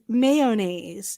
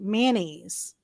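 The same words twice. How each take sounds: First: It begins with a full 'may-oh' sound. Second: It begins with a short 'man' sound. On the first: "Mister Dom says mayonnaise" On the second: "like M A N N A I S E"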